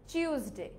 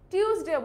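First: টিউসডে with CH at the start, "chyus-day"; corrected pronunciation. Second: টিউসডেও with a hard T, "tyus-day"; hard T opening টিউসডেও; pronunciation to avoid. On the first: Teacher giving the form to use from today, CH pronunciation. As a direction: turn the T of টিউসডে into CH. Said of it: "আজকে থেকে আমরা কি বলবো?". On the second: Teacher warning against this form too, hard-T Tuesday. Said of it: "টিউসডেও বলবো না". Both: Shown as a demonstration.

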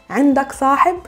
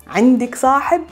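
The two takes are said the same way.

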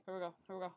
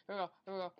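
No difference in how they are said.

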